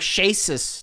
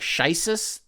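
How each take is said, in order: First: The first syllable sounds like 'shay'. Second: The first syllable sounds like 'shy'. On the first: It follows how his name is really said. The speaker calls it right. "Shasis doesn't sound funny" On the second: It makes the name sound like ISIS. The speaker calls it wrong. "you can kind of look at it as like Shisis, that's funny. ... that's not how you say his name"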